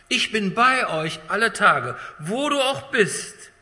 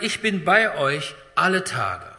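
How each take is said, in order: First: Slow, louder, climbing higher; impassioned promise. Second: Said in the usual way. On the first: Acted. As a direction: lift the promise up to the congregation. Repeated promise, rising to climax.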